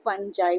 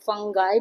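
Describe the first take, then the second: First: The middle consonant is a j, ending in 'eye'. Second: The middle consonant is a hard g, ending in 'eye'. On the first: "फंजाई भी होता है" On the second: "इसका pronunciation फंगाई भी होता है"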